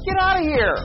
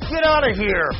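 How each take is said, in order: First: It is said in an excited tone. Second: It is said in an angry tone.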